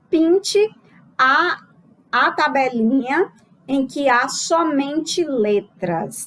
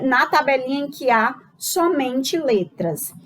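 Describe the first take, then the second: First: Slow, raised voice as if reading an exam item aloud; reading the task aloud. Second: Said in the usual way. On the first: Shown as a demonstration. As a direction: read the instruction slowly to the class. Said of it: "Eu trago aqui a seguinte questão". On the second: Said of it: "eu solicitar que o aluno pinte".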